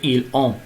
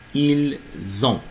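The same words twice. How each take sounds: First: No z sound links ils into ont. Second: A z sound links ils into ont. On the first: The speaker calls it wrong. "Pas dire" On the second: The speaker calls it right. "on fait une liaison lorsqu'on a un pronom personnel"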